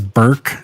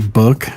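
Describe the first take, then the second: First: The word has the 'er' vowel of 'burk'. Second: The word has the short vowel of 'book'. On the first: The speaker calls it wrong. "she says Burke" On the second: The speaker calls it right. "she can't say book"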